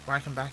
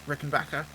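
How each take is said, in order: First: The name begins with a 'rye' sound. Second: The name begins with a 'rick' sound. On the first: The speaker calls it wrong. "His name is not Reichenbach" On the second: The speaker calls it right. "it's Rickenbacker"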